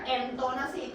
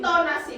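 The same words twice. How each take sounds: First: "entonasi" with "en" in place of "in"; mispronounced first vowel. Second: "Intonasi" with a clear "in" at the start, pitched up and louder; correct Malay pronunciation. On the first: Teacher quotes student's Indonesian-sounding slip, "en" starting "entonasi". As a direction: open "entonasi" on an e sound, less forceful. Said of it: "Itu indon sangat tu". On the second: Teacher corrects the student's word, clear "in" in "Intonasi". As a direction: stress the opening I of "Intonasi", as a correction. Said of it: "bukan entonasi". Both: Shown as a demonstration.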